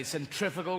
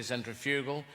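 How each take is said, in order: First: "centrifugal" as sen-TRIF-uh-gul; American pronunciation. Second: "centrifugal" as sen-tri-FYOO-gul; British pronunciation. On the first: Comic showing Americans their word, "centrifugal" as sen-TRIF-uh-gul. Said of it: "You say centrifugal". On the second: Comic giving the British word, "centrifugal" as sen-tri-FYOO-gul. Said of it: "we say centrifugal". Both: Shown as a demonstration.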